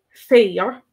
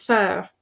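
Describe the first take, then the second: First: Fair with a drawn-out long vowel, as in féar; lengthened fada vowel in fair. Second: Fair with a short clipped vowel, as in fear; unstressed short vowel in fair. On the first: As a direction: stretch the vowel in fair like grass. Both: Shown as a demonstration. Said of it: "the accent in Sína Fada and without".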